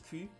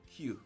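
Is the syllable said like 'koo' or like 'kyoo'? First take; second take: koo; kyoo. First: It sounds like 'koo', a Dutch letter sound. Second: It sounds like 'kyoo', the English letter. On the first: The speaker calls it wrong. "I'm pronouncing it as Q, like in a Dutch Q" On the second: The speaker calls it right. "I need to pronounce it as a Q, like a Q B"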